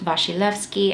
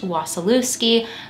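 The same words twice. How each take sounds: First: The name is said with Polish pronunciation. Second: The name is read with English spelling sounds. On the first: The speaker calls it right. "it is a Polish last name and it is pronounced" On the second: The speaker calls it wrong. "in English, it looks like it would be pronounced"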